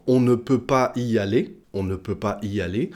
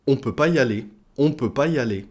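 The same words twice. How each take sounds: First: "on ne peut pas y aller" with ne sounded; full negation. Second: "on peut pas y aller" run together without ne; dropped ne. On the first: Teacher giving the full form, "on ne peut pas y aller" with ne kept. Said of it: "pour dire". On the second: Teacher showing spoken French, "on peut pas y aller" without ne. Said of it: "on dira en français parlé". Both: Shown as a demonstration.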